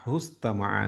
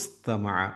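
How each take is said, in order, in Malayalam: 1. ഈ വാക്ക് 'hu' ശബ്ദംകൊണ്ടാണ് ആരംഭിക്കുന്നത്. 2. ഈ വാക്ക് 'i' എന്ന സ്വരാക്ഷരംകൊണ്ടാണ് ആരംഭിക്കുന്നത്. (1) "ചേർത്തി ഓതുമ്പോൾ ... ഹുസ്തമഅ എന്നാണ് വരിക" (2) "ഇസ്തമഅ എന്നാണ്"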